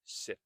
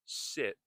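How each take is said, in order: First: SIT with a crisp, released final T; careful SIT, T let go audibly; fully pronounced T. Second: SIT with the final T held back, not released; SIT ending on a silent, unreleased T. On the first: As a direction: sound out the T at the end of SIT. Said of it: "instead of sit". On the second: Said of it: "Notice I said sit instead of sit". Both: Shown as a demonstration.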